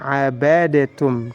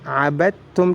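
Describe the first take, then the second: First: A vowel is heard between d and t. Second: The d runs straight into the t. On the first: The speaker calls it wrong. "tidak boleh dibaca abadatum" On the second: The speaker calls it right. "abadtum abadtum"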